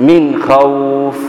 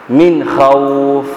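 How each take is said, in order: Both takes have the same delivery.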